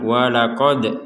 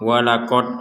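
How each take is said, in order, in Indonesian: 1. D terakhir dilepas dengan pantulan. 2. D terakhir berhenti datar tanpa pantulan. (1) "Harus ada pantulan" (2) "enggak ada pantulannya itu"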